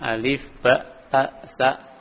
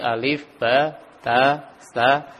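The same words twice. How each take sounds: First: The vowels are cut short, ending abruptly. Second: The vowels of each name are held long. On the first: The speaker calls it wrong. "bukan alif ba ta sa, tidak seperti itu" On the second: The speaker calls it right. "dipanjangkan hurufnya"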